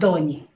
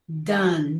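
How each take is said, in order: First: It ends with an added vowel sound. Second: It ends on the final n consonant. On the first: The speaker calls it wrong. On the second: The speaker calls it right.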